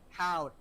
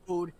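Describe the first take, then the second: First: The vowel sounds like 'how'. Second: The vowel sounds like 'hoe'. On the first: The speaker calls it right. "you pronounce it Howd" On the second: The speaker calls it wrong. "not Hoed"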